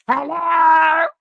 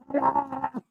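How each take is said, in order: First: Shrill shouted hello, much higher; loud high phone hello. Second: Lady's phone hello. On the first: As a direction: belt out hello like her. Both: Retold or imitated. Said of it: "She answered the phone. Here she go".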